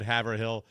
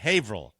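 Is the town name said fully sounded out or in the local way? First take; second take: fully sounded; local way. First: Every syllable of the name is fully sounded. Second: The name is said in its shortened local form. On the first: This is how an outsider would say it. The speaker calls it wrong. "I would have always said Haverhill uh, the way it's spelled" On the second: This is how locals say it. The speaker calls it right. "but Haverhill"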